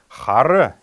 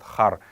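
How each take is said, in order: First: The word ends with a short vowel. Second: The final vowel is dropped entirely. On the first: "фонетическая, орфоэпическая норма этого слова хары" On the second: "вот это неясное гласное съедается"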